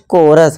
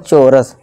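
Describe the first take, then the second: First: The word begins with a k sound. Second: The word begins with a ch sound. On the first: The speaker calls it right. "इस तरह से देखिए कोरस" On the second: The speaker calls it wrong. "ना कि"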